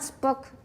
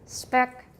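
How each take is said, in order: First: The vowel is a rounded 'oo' sound. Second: The vowel is a short 'eh' sound. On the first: The speaker calls it wrong. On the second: The speaker calls it right.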